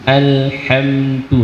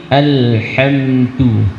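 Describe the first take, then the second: No difference in how they are said.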